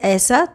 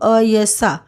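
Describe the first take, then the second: First: The first vowel is a pure long 'ai' sound. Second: The first vowel glides like 'a' plus 'y'. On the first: This is the Sanskrit-style pronunciation. "Sanskrit में ए का उच्चारण ऐ" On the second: This is the Hindi pronunciation. "Hindi में ये अ जैसा होता है"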